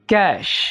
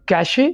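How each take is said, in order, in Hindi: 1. यह शब्द सादे 'sh' ध्वनि पर खत्म होता है। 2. यह शब्द एक अतिरिक्त 'ay' स्वर से खत्म होता है। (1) "बल्कि ये होगा कैश" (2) "इस वर्ड को आपने कैशे नहीं बोलना"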